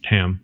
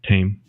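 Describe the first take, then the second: First: The vowel sounds like the one in ham. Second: The vowel sounds like the one in game. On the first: The speaker calls it right. "Tam, not Tame" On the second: The speaker calls it wrong. "not Tame"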